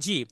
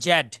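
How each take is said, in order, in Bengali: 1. অক্ষরটি zee বলে উচ্চারিত হয়, স্বরধ্বনি দিয়ে শেষ। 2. অক্ষরটি zed বলে উচ্চারিত হয়, d দিয়ে শেষ। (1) "আমেরিকানরা জেড রে বলে জি" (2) "ব্রিটিশরা বলে জ্যাড"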